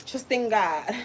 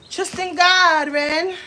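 First: Said in the usual way. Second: Put-on higher, louder, slow preachy girl voice; imitating that girl. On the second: Copying the girl who says trust in God, preachy. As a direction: drag it out like the churchy girl. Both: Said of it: "You remind me of that girl".

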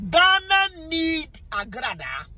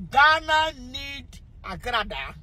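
First: "Ghana" lifted high and slow, chant-like; slow high chant of "Ghana need Agrada". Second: Said in the usual way. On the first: Shown as a demonstration. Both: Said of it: "What was it?".

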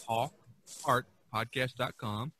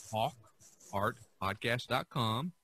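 The two takes are said the same way.

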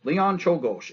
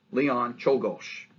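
First: Leon Czolgosz said louder and brisk, CHOLE-gosh; a louder, higher run at Leon Czolgosz; confident name. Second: Leon Czolgosz spelled out slowly, CHOLE-gosh; teacher modelling Leon Czolgosz slowly as CHOLE-gosh; careful pronunciation. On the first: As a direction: announce Leon Czolgosz firmly at normal speed. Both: Shown as a demonstration. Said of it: "it's spelt like it sounds".

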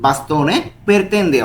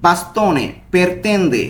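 First: Said in the usual way. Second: বাস্তনে পেরতেন্দে said slowly, syllable by syllable, stress on বাস্তনে; slow pronunciation demo. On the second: Shown as a demonstration. Teacher modelling a new Italian phrase for students, slowly. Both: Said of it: "বারবার করে উচ্চারণ করার চেষ্টা করব".

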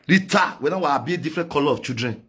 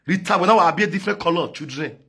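No difference in how they are said.

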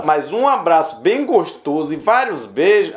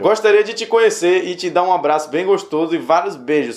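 First: "bem gostoso" and "vários beijos" drawn out with swooping pitch; slow, incredulous stress on each phrase of "bem gostoso e vários beijos"; pointed emphasis. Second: Said in the usual way. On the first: Shown as a demonstration. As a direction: dwell slowly on "gostoso" and "beijos". Repeats the suspicious part pointedly.

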